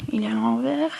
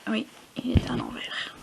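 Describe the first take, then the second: First: Said in the usual way. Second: Whispered repeat. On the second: Real, not acted. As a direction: breathe it out unvoiced.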